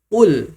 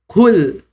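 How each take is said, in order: First: The first consonant has no puff of breath. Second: The first consonant has a puff of breath. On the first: The speaker calls it right. "tidak ada nafas yang keluar" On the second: The speaker calls it wrong. "ada nafas yang keluar"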